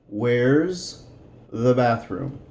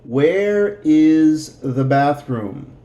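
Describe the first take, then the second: First: Where and is are joined into one word. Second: Where and is are said as separate words.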